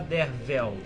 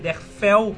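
First: The middle consonant is a v sound. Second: The middle consonant is an f sound. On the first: The speaker calls it right. "mas se fala Dervel" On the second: The speaker calls it wrong. "se escreve com F"

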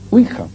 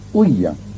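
First: The middle consonant is a harsh throaty h. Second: The middle consonant is a soft y sound. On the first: The speaker calls it wrong. "Generalmente se dice huija" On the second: The speaker calls it right. "que es así como se pronuncia"

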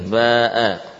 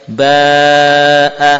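First: The long vowel is held for four counts. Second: The long vowel is held for five counts. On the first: "empat harokat" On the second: "Kalau lima harokat lebih panjang sedikit"

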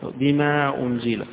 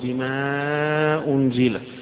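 First: The long vowel is held for two counts. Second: The long vowel is held for four counts. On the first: "يقصر" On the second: "يوسط"

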